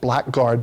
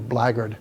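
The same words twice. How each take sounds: First: The word is said as spelled, black-guard. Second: The word is reduced and said like blaggard. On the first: "You can pronounce it blackguard" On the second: "but it's really blackguard"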